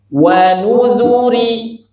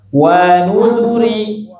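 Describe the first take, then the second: First: Every syllable gets one equal beat. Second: The first syllable wa is held too long. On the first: The speaker calls it right. "itu namanya keseimbangan harokat" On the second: The speaker calls it wrong. "Kenapa wawunya keliru, Bu? Kepanjangan"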